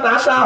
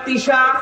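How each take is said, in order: First: The word is said with an 'a' vowel: tasha. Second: The word is said with an 'i' vowel: tisha. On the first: The speaker calls it right. "মান তাশা হবে" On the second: The speaker calls it wrong. "বলছে কুলিল্লাহুম্মা তুতিল মুলকা মান তিশা"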